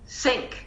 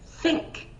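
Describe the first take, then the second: First: It begins with an s sound. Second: It begins with a th sound. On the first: The speaker calls it wrong. "your classmate won't stick their tongue out and it'll say" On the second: The speaker calls it right. "a good student, will- you will say"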